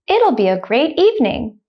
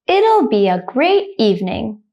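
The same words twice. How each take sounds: First: The sentence is spoken quickly. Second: The sentence is spoken slowly. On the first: "the second time I will say it quickly, like a native speaker" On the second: "The first time I will say it slowly"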